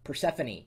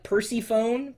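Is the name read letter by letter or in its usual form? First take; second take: usual form; letter by letter. First: The name is said in its usual spoken form. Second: The name is read the way its letters look. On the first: The speaker calls it right. "you pronounce it Persephone" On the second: The speaker calls it wrong. "it looks like Persephone"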